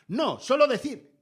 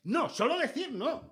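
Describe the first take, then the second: First: Slow, louder and higher pompous "solo decir"; mock correspondent. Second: Much higher, lighter "solo decir"; mock correspondent. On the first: Mocking a TV correspondent who won't stop talking, slow and pompous. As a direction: drag out "No, solo decir" like a self-important reporter. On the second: Mocking the same correspondent again, high and teasing. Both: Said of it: "Y dicen".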